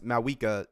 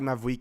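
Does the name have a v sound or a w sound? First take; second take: w sound; v sound. First: The name is said with a w sound. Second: The name is said with a v sound. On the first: It does not feel as strong. The speaker calls it wrong. "it don't hit the same" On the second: It sounds empowering. The speaker calls it right. "You got to have that V in there"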